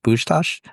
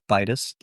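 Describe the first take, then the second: First: The name is said in Hungarian form. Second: The name is said in anglicized form. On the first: This is the original form of the name. "the Hungarian pronunciation's" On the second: This is the everyday family form. "my last name is pronounced Bitus"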